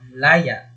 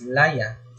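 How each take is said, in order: First: Stress on the first syllable, glottal catch ending. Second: Stress on the last syllable, open ending. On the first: Liberty. "sa malumi, pagbigkas natin ay ganito" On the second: Ginger root.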